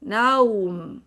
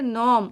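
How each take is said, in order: First: The vowel opens on a, then glides to u. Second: The vowel is a single plain o sound. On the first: The speaker calls it right. "मुंह खोलना है पहले ना, और इसके बाद मीम" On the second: The speaker calls it wrong. "ये भी हम गलत पढ़ते हैं।"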